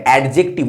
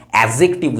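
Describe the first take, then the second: First: অ্যাডজেক্টিভ said the common wrong way, with a hard retroflex d, "eɖjektib"; teacher showing students how অ্যাডজেক্টিভ is often mispronounced, with a hard retroflex d; wrong pronunciation. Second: Teacher giving students the right way to say অ্যাডজেক্টিভ, a clean "ejektiv"; correct pronunciation. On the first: ছাত্রদের ভুল উচ্চারণ দেখানো: অ্যাডজেক্টিভ শক্ত মূর্ধন্য ড দিয়ে. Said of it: "অনেকে কিন্তু অ্যাডজেক্টিভ উচ্চারণ করে". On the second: শিক্ষক সঠিক উচ্চারণ শেখাচ্ছেন: অ্যাডজেক্টিভ পরিষ্কার "এজেক্টিভ". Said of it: "অ্যাডজেক্টিভ উচ্চারণ করবে". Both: Shown as a demonstration.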